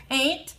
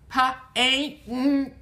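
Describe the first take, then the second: First: Said in the usual way. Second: "Pa-ain't-ta" in separate sounds, p, ain, t, with gaps; sounding out. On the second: Shown as a demonstration. Teacher sounding out paint for learners, "Pa-ain't-ta" piece by piece. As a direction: break "Pa-ain't-ta" into punched, separated phonemes. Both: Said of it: "Where's the na in paint?".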